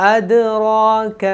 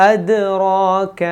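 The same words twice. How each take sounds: No difference in how they are said.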